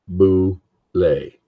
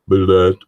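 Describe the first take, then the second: First: It sounds like 'boo-lay', ending in an ay sound. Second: It sounds like 'bullet', ending in a t sound. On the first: The speaker calls it right. "It's printed Boulay" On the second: The speaker calls it wrong. "It's not pronounced Bullet"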